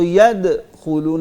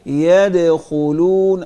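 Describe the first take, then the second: First: The sound is cut abruptly with a jerk after yad. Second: The sound flows smoothly from yad into khulun. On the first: The speaker calls it wrong. "ऐसे नहीं, झटका नहीं देना" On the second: The speaker calls it right. "इसको छोड़ना, आवाज को छोड़ना"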